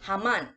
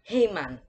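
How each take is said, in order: First: The name is said without an American accent. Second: The name is said with an American accent. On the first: The speaker calls it right. "I'm gonna say Haman" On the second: The speaker calls it wrong. "don't pronounce it as Heyman... don't it push it to the American as accent"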